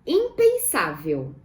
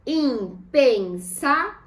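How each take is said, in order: First: Said in the usual way. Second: IM, PEN, SÁ, VEL, slow and spaced; "Impensável" as im... pen... sá... vel; syllable by syllable. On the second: Shown as a demonstration. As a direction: break "Impensável" into four separate syllables. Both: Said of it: "Vamos separar em sílabas".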